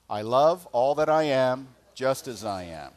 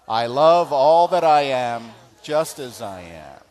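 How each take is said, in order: First: It is said plainly, without much conviction. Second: It is said with strong, believing conviction.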